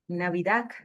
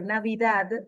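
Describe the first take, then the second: First: The word ends with a k sound. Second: The word ends with a d sound. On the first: The speaker calls it wrong. "que termina en C, eso es un ruido al oído" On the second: The speaker calls it right. "que termina en D"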